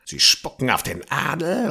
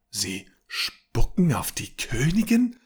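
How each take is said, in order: First: Said in the usual way. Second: Higher, disbelieving question; can't believe what she's hearing; incredulous. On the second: Acted. (ungläubig, höher, mit Betonung auf „Königin“) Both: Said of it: "unterbrach Lisha ungläubig".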